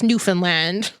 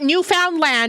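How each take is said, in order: First: Some syllables are clipped and run together. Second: Every syllable is said fully, as it is spelled. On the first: It is how locals actually say it. The speaker calls it right. "but it's Newfoundland ... they don't say half the words or syllables" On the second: It is a spelling pronunciation, not the local one. The speaker calls it wrong. "It's not Newfoundland, okay? ... That's how we say it to spell it"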